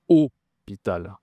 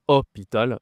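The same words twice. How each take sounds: First: "hôpital" slowly, with a closed, rounded first O; closed circumflex O. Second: "hôpital" with an open, short first O; wrong open O. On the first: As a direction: stretch the closed O opening "hôpital". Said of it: "accent circonflexe". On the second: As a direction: say "hôpital" wrongly, starting with O as in "hot". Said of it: "différence entre le O et le O". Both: Shown as a demonstration.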